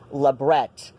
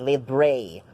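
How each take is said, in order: First: The word is given a non-French pronunciation. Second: The word is given a French-style pronunciation. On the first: The speaker calls it right. "It's labret because it's from Latin, not from French" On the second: The speaker calls it wrong. "not a libre"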